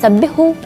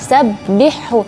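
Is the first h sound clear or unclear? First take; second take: unclear; clear. First: The soft h is swallowed into the second h. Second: The soft h is heard clearly before the second h. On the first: The speaker calls it wrong. "Kalau sabbihhu berarti H hanya tidak jelas" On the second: The speaker calls it right. "Jadi harus suara H lembutnya itu jelas"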